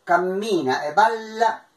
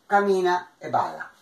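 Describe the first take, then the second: First: "Cammina e balla" with double m and l; Italian pronunciation. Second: "cammina e balla" with single consonants; short m and short l, no doubling; Piedmontese pronunciation. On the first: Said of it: "lo che diciamo in italiano". (pronuncia italiana, doppie lunghe) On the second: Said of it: "Parei a dire in piemontese". (pronuncia piemontese, senza doppie) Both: Shown as a demonstration.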